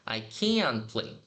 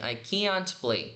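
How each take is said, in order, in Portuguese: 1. O T em "can't" quase não se ouve. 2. O T em "can't" é pronunciado claramente.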